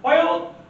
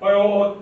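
First: It is said high and bright. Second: It is said low and intimidating.

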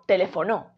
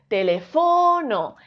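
First: The stress is on the fourth syllable. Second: The stress is on the third syllable. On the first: "Y si fuese no" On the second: "Si fuese fo"

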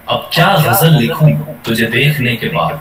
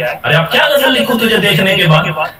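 First: It sounds warm and emotional. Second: It sounds angry and annoyed.

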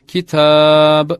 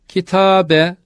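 First: The word ends on the b with no vowel. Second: The word ends with a vowel after the b. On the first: The reader stops at a pause mark. "durulduğu zaman cezimli olarak kitab şeklinde okunur" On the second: The word is read without stopping. "sonları fethalı"

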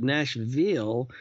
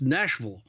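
First: The final syllable is full and slightly stressed. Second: The final syllable is swallowed and reduced. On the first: This is how people in the city say it. "or even stress the veal part a little bit" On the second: This is how people outside the city say it. "people outside of Nashville often swallow the veal"

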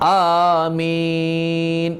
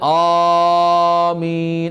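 First: The second vowel is drawn out long. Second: The first vowel is drawn out long. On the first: The speaker calls it right. "മീമിനാണ് നീട്ടേണ്ടതെന്നാണ്" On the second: The speaker calls it wrong. "അല്ലാതെ ആമീൻ അങ്ങനെയല്ല"

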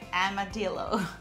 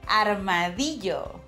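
First: The word is pronounced with English sounds. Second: The word is pronounced with Spanish sounds.

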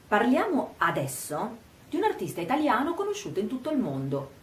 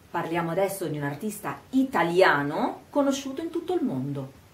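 First: Emphasis falls on 'parliamo adesso'; the rest is quicker, lower. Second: 'Italiano' alone is slowed and emphasized; the rest is fast. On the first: The timing of the talk matters. "mettere l'accento sull'aspetto temporale, parliamo adesso" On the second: The artist's nationality matters. "rallento quando dico italiano? Enfatizzo e rallento, ma il resto è veloce"

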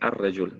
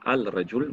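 First: The article's L becomes a doubled R sound. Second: The article keeps a clear L before rajul. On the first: The speaker calls it right. "mais on dit ar-rajul" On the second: The speaker calls it wrong. "On ne dit pas al-rajul"

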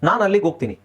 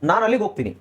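No difference in how they are said.

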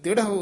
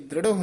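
First: The first syllable has no r after d. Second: The first syllable has an r after d. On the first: The speaker calls it right. "ਦਿੜਹੁ ਉਚਾਰਨ ਕਰਨਾ" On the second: The speaker calls it wrong. "ਇੱਥੇ ਦ੍ਰਿੜਹੁ ਨਹੀਂ ਕਹਿਣਾ ਹੈ"

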